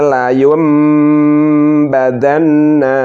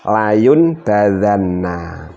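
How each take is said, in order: First: The nasal before the b is an m sound. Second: The nasal before the b is an n sound. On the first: The speaker calls it right. "Dibaca seperti ini harusnya" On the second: The speaker calls it wrong. "Layun nun sukun layun, kemudian ketemu huruf ba"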